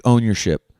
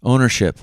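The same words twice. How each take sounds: First: "ownership" slipped into "own-your-ship"; "ownership" wrongly said as own-YOUR-ship; mispronounced slip. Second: "Ownership" said as OWN-er-ship; "Ownership" cleanly corrected, no "your" sound; corrected pronunciation. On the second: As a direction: say "Ownership" with a short "er" in the middle. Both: Real, not acted. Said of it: "excuse me".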